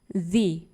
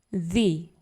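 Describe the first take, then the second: First: It is said in the form used before vowels. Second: The same.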